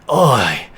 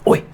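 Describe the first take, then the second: First: It sounds weary and exasperated, like a sigh. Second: It sounds like calling out for attention.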